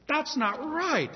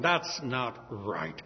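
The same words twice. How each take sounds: First: "That's not right" high and slow, outraged; indignant. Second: "That's not right" low and very slow, held-in anger; rising anger. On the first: Poor man protesting the theft, high and indignant. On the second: David reacting to the stolen lamb with low held anger. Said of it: "an anger arose within him". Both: Acted.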